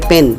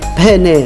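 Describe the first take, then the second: First: The word ends in a consonant sound. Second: The word ends in a vowel sound. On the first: The speaker calls it wrong. "गलत है पेन" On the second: The speaker calls it right. "सही है पहने"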